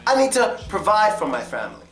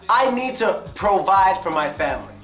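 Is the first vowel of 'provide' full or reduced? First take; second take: reduced; full. First: The first vowel of provide is a weak schwa. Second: The first vowel of provide is full. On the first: The speaker calls it right. "The O gets the schwa" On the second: The speaker calls it wrong. "No one really says it like that"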